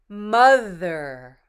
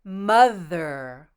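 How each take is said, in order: Both takes have the same delivery.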